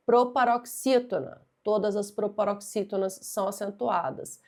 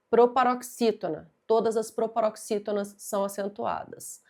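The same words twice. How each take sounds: The two takes are said the same way.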